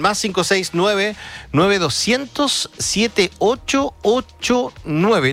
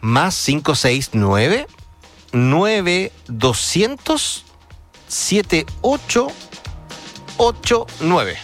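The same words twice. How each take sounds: First: The number is read at normal speed. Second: The number is read slowly.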